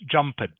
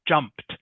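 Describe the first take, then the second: First: The ending is pronounced as a separate ed. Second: The ending is pronounced as a t sound. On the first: The speaker calls it wrong. "not jumped" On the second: The speaker calls it right. "ed are pronounced like t, so it's jumped"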